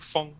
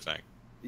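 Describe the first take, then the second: First: The name has a rounded 'o'-like vowel. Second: The name has a flat 'a' vowel, as in cat. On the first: This is how the name is really pronounced. "like if you like shoot something out of a tube, it's like fong, like that" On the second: This is an easier, simplified way to say the name. "that's too hard, so I just say fang"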